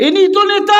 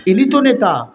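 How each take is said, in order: First: Very high-pitched ringing call; rousing cry. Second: Higher-pitched, falling exclamation; raised prompt. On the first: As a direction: cry it out far higher, to rouse everyone. Repeats it louder to rouse crowd. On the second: Preacher prompting the crowd, raised exclamation. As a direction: put it to the crowd, pitch lifted. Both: Real, not acted.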